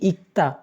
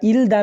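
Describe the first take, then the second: First: The first syllable ends in a k sound. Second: The first syllable ends in an l sound. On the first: The speaker calls it right. "আমরা বলতেছি কি ইক্তা" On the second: The speaker calls it wrong. "ইল দা না বলে"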